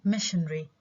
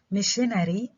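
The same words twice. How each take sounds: First: Missionary shortened to MISH-un-ree; reduced to three syllables. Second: Missionary in full, MISH-uh-neh-ree; full four syllables. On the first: Teacher showing the reduced form, missionary as MISH-un-ree. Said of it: "بحكي missionary". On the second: Teacher showing the unreduced form, missionary in four syllables. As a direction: sound every vowel of missionary, with the a kept. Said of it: "instead of saying". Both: Shown as a demonstration.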